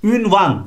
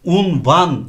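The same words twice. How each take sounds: First: ÜNVAN starting with ü, drawn out; wrong pronunciation. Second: UNVAN starting with u, slowly; correct pronunciation. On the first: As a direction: say ünvan with front ü. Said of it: "değil". (yanlış söyleniş, ünvan) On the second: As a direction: say unvan with back u. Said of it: "olması lazım". (doğru söyleniş, unvan) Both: Shown as a demonstration.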